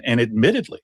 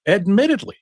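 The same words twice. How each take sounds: First: Said in the usual way. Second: "admittedly" pitched much higher, rising at the end; emphatic repeat. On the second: Real, not acted. Expert underlines a point to Nancy, "admittedly" stressed high.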